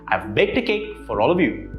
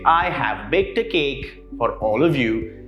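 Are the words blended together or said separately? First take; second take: blended; separately. First: The words are contracted and blended together. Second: Each word is said separately and fully. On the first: The speaker calls it right. "Notice how the last bit sort of merge into it" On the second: The speaker calls it wrong. "that doesn't really sound very natural"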